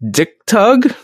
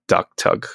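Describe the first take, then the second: First: "Dick Tug" with a short i as in pick; misread as "Dick Tug". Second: "duck tug" with an uh vowel as in luck; proper "duck tug" pronunciation. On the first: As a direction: say "Dick Tug" slowly, reading it as English. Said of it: "sound like you could read it". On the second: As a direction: say "duck tug" as the correct reading. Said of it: "supposed to be pronounced like". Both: Shown as a demonstration.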